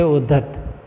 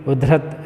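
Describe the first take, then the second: First: उद्धत with doubled dh, no r; correct pronunciation. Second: उद्धत with an r slipped in; incorrect pronunciation. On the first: Teacher shows the word before the error, उद्धत as "uddhat". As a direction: say उद्धत as written, ud-dhat. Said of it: "लेकिन उद्धत ऐसे बोलते हैं". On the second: Teacher shows how people misspeak, उद्धत as "udhrat". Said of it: "ये अशुद्ध है". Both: Shown as a demonstration.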